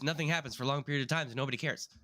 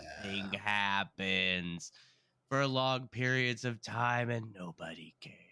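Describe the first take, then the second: First: The sentence is said quickly and hurriedly. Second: The sentence is said slowly and draggingly. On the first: The story rushes along too quickly. "this one is overpaced" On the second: The story drags with too little happening. "Elektra is underpaced"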